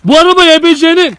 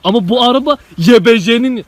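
First: High, loud insistent shout. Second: Said in the usual way. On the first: Real, not acted. Friend drives home whose car it is, shouting. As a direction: shout it at them, much higher. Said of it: "Ya ne bağırıyorsun bana ya?". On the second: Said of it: "ne bağırıyorsun bana".

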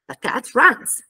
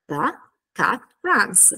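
First: THE tiny and light before full CAT RUNS; reduced article. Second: Slow THE, CAT, RUNS with falling end; word-by-word. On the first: Teacher showing how articles are pronounced smaller, reduced article. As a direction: shrink THE, land on CAT RUNS. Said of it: "vengono asciugati, pronunciati più piccoli". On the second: Teacher breaking the answer into its parts, word by word. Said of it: "ci faremo anche un lavoro articolatorio". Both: Shown as a demonstration.

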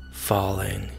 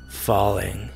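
The two takes are said the same way.

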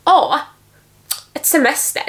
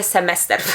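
First: "semester" sung out high and overdone, a showy Swedish accent; mock overdone Swedish accent. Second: Said in the usual way. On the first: Shown as a demonstration. Teacher mocks a showy Swedish accent for her students, overdone and high. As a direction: ham up "et semester" like a showy Swedish native, pitched higher. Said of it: "Nie chce mi się bawić w akcenty". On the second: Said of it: "Nie, ja mówię semester".

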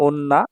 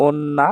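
The two takes are said the same way.

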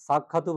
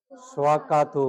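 First: সাক্ষাতু with an added u at the end; wrong pronunciation demo. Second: স্বাক্ষাৎ said with a clear swa and a closed final t; correct pronunciation. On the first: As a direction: show the students' mistake সাক্ষাতু. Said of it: "সাক্ষাতু হবে না তো". (ভুল উচ্চারণ সাক্ষাতু) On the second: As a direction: give the right form স্বাক্ষাৎ. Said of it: "কি হবে?". (সঠিক উচ্চারণ স্বাক্ষাৎ) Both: Shown as a demonstration.

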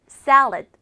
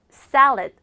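Both takes have the same delivery.

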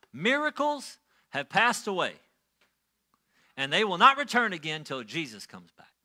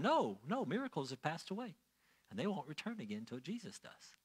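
First: Louder, emphatic preacher's pronouncement; pulpit proclamation. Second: Much softer, falling-away echo of the preacher; child repeating doctrine. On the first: Elder preaching to the church that Sunday, pulpit proclamation. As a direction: imitate an elder declaring doctrine from the pulpit. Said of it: "He got up in the pulpit and he said this". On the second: Child answering whoever asked about miracles, quiet recital. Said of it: "if someone were to ask me as a child". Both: Retold or imitated.

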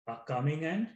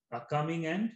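The two takes are said the same way.

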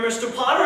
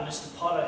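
First: Mister Potter called out loud and higher in a Jimmy Stewart-style voice; a loud, higher hero's voice rising on Potter; James Stewart voice. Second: Said in the usual way. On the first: Retold or imitated. George confronts the rival Mister Potter, loud and higher. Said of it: "an excellent actor named James Stewart". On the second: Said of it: "there's this scene where he's".

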